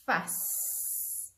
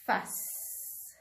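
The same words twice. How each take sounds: First: "fuss" breathed out, dragging the s; dictation word. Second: "Fuss" repeated as a short breathy take; dictation word. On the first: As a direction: stretch the sounds of "fuss". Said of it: "So the next word is". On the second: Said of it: "Listen to the sounds". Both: Shown as a demonstration.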